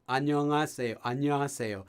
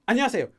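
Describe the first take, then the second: First: Said in the usual way. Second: "안녕하세요" rattled off fast, higher and louder; rapid "안녕하세요" with syllables squeezed together; really quick. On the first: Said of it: "If you learn that they say it". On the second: Shown as a demonstration. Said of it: "really quick".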